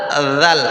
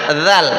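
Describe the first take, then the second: No difference in how they are said.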